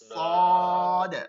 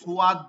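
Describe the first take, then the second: First: The vowel follows directly with no glide. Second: A w-glide is added before the vowel. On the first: The speaker calls it right. "কোনো ওয়াও নাই সোজা উঠে যাবে" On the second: The speaker calls it wrong. "এটা আপনারা অনেক পড়েন এরকম ... ওয়াও যোগ করে"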